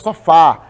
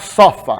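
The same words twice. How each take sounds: First: The stress falls on the last syllable. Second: The stress falls on the first syllable. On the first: The speaker calls it right. "a gente fala sofá, ele é mais forte" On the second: The speaker calls it wrong. "Ninguém fala sofá"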